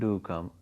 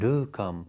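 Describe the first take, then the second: First: The word do is not stressed. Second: The word do is strongly stressed. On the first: The speaker calls it wrong. "We just don't pronounce it do come" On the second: The speaker calls it right. "We pronounce it do come. So uh, the do, the verb do is strongly stressed"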